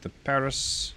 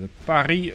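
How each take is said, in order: First: Paris is pronounced the English way. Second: Paris is pronounced the French way.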